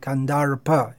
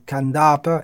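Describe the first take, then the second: First: The R sound is clearly pronounced. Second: The R sound is left silent. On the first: The speaker calls it right. "kandarpa is pronouncing" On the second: The speaker calls it wrong. "kandapa is without pronouncing the R"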